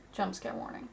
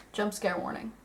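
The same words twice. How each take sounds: First: Soft breathy whisper. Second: Said in the usual way. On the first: Shown as a demonstration. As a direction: whisper the warning under your breath.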